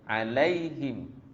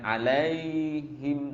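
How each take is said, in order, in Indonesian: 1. Kata "alaihim" diucapkan cepat dan singkat. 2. Kata "alaihim" diucapkan lambat dan dipanjangkan. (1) "alaihim cepat ya" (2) "jangan alaihim lambat ya"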